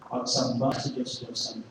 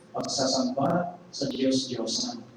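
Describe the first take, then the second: First: "Pagsamba" said cleanly with falling tune; self-correction. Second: "pagsasamba" drawn out slowly, extra syllable; slip of the tongue. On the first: Preacher to congregation, firmly correcting to "Pagsamba". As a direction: correct it to "Pagsamba", crisp and settled. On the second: Preacher to congregation, slowly drawling the misspoken "pagsasamba". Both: Real, not acted.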